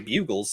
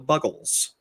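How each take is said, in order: First: The first vowel is a long 'you' sound. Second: The first vowel is a short 'uh' sound. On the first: The speaker calls it wrong. "who I thought for the longest time were the Bugles. They are not" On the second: The speaker calls it right. "They're the Buggles"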